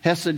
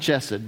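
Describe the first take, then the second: First: The word begins with a soft breathy h. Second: The word begins with a throaty ch sound.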